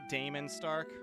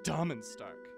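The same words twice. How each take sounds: First: The first vowel of Damon is a long A. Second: The first vowel of Damon is a short A.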